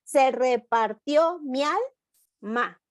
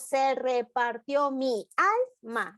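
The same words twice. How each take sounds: First: "Se repartió mi alma" with "mi alma" blended into one syllable; slow, linked "mialma"; with sinalefa. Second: "Se repartió mi alma" with "mi" and "alma" kept apart; slow, split "mi / alma"; without the blend. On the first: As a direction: run "mi alma" together as "mialma". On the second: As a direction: say "mi alma" as two separate syllables. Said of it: "Entonces no decimos". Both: Shown as a demonstration.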